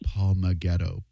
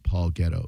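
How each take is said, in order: First: The name is said with four syllables. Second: The name is said with three syllables. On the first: The speaker calls it wrong. "add an extra syllable" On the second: The speaker calls it right.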